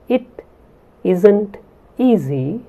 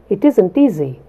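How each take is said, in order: First: The words are said separately, not linked. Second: The words run together into linked chunks.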